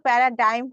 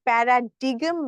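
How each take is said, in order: First: The g is silent, ending in 'dime'. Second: The g is sounded, ending in 'digm'. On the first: The speaker calls it right. "এটার উচ্চারণ কিন্তু প্যারাডাইম হবে" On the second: The speaker calls it wrong. "প্যারাডিগম না। অনেকে উচ্চারণটা ভুল করে থাকে।"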